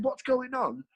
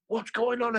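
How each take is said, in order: First: High, mocking echo of her question; student repeats the warden's question back in mock indignation; indignant echo. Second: Raised, higher mock warden demanding; the warden asks what's happening, in a raised mock voice. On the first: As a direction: throw her words back at her, pitched up. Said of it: "I said". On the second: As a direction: play the warden barging in, pitch up. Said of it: "and she goes".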